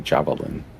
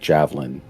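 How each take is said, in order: First: The second vowel is clearly pronounced. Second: The second vowel is skipped over quickly. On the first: "but you say javelin" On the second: "I just roll over that second A like javelin"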